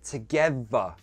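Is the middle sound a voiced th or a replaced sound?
replaced sound. The voiced th is replaced by another sound. "We change them to th sounds. Together becomes together"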